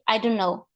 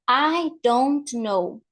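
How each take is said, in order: First: The words are blurred together and reduced. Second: Each word is pronounced fully and clearly. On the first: "but then people say" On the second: "in English we have I don't know"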